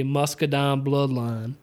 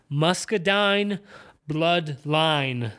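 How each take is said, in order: First: Southern accent. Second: "Muscadine Bloodline" slowly, each long i fully sounded; over-enunciated. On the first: Podcaster showing what to avoid saying, Southern-accented "Muscadine Bloodline". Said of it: "trying to not say". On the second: Podcaster trying to avoid the Southern accent, over-careful "Muscadine Bloodline" with full long i. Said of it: "really just accentuate the". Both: Shown as a demonstration.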